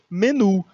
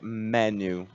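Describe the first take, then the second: First: It is pronounced the Portuguese way. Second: It is pronounced the English way. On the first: "Em português a gente pronuncia menu" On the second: "mas em inglês a gente pronuncia menu"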